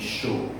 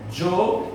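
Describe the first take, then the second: First: The word starts with an sh sound. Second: The word starts with a dj sound. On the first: "um som de X" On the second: "com o som de T J"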